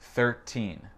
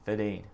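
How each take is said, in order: First: The R sound in thirteen is clearly pronounced. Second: The R sound in thirteen is left out. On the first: "Je vais le dire avec mon accent" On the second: "Il dit quelque chose comme thirteen, il a sauté le R"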